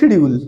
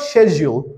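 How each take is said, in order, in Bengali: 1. এটা 'shid' দিয়ে শুরু হয়, বাংলাদেশি ঢঙে। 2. এটা 'shed' দিয়ে শুরু হয়, ব্রিটিশ ঢঙে। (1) "বাংলাদেশি উচ্চারণ হলো" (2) "ব্রিটিশ উচ্চারণ হলো"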